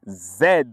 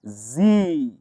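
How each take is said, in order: First: It is said in a British accent. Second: It is said in an American accent.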